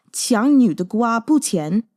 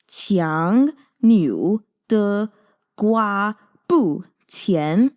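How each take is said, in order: First: Said in the usual way. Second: Qiang niu de gua bu qian, each syllable drawn out very slowly; saying it slowly. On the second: Shown as a demonstration. Teaching viewers a Mandarin saying, very slow. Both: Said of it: "I'm gonna say it slowly".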